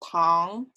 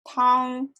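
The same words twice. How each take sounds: First: The pitch rises from middle to high. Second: The pitch stays high and level. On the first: It means sugar. "For sugar" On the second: It means soup. "For soup"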